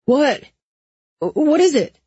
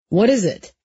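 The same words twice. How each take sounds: First: High, alarmed questioning; urgent, high-pitched alarm. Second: Mildly demanding question; firm demand, only slightly raised. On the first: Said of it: "Owen's alarmed voice said". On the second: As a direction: press for an answer, a touch forceful. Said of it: "he demanded". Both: A narrator's reading.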